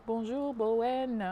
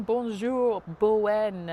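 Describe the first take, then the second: First: Bonjour drawn out slowly, French style; slow French greeting. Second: Bonjour said louder, French style; French greeting, loud. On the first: Repeating the French greeting slowly so the child catches it. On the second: Greeting a six-year-old viewer loudly in French. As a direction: call out Bonjour, Bowen in French. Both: Shown as a demonstration. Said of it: "I say it in French".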